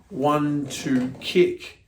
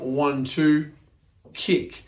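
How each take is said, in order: First: The three counts run together without a pause. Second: There is a pause after two before kick. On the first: The cross is not committed to, so the kick comes at once. The speaker calls it right. "the cross is just thrown out to hide the kick" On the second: The cross is committed to, so there is a wait before the kick. The speaker calls it wrong. "wait for your center of gravity to settle back"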